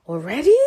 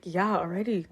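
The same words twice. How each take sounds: First: Louder, rising questioning tone; imitated disbelief, lifting at the end; retold surprised question. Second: Softer, falling confirmation; understated comeback, falling at the end; retold matter-of-fact reply. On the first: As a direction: act out someone taken aback, asking. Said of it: "Paul then said". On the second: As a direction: answer the question as settled fact. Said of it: "I'm like".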